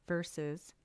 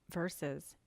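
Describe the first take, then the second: No difference in how they are said.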